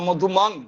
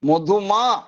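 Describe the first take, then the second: First: The word ends with a final ng sound. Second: The word ends on a vowel without ng. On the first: The speaker calls it right. "চন্দ্রবিন্দুর উচ্চারণ সংস্কৃতে অনুস্বার হয়ে যাবে" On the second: The speaker calls it wrong. "এরম করব না"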